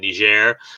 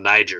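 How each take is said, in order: First: Niger is given its careful local pronunciation. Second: Niger is given a plain English pronunciation. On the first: The speaker takes care to say the name properly. "Joe's doing the pronunciation" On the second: The speaker does not bother with the proper pronunciation. "this friend from state is not"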